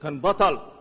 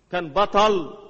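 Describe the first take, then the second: First: Said in the usual way. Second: Emphatic repeat, louder; louder declaration. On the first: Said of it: "repeated statement". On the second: Shown as a demonstration. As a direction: proclaim it the second time. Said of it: "repeated, louder".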